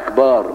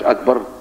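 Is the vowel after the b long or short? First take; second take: long; short. First: The vowel after the b is drawn out long. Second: The vowel after the b is kept short. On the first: The speaker calls it wrong. "بيحط ألف بعد الباء" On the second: The speaker calls it right. "مش أكبر"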